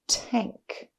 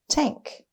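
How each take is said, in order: First: The word is drawn out slowly, sound by sound. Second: The word is said quickly as one smooth unit. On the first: "Tap and stretch" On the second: "Say it fast"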